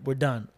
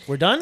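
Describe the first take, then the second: First: DONE falling, matter-of-fact; "We're done." closed with falling done; final statement. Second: DONE rising as a question; "We're done?" echoed with rise on done; disbelieving question. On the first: Friends giving up search, final "done". Acted flat answer to the question. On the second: Narrator to returning friends, questioning "done". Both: Retold or imitated.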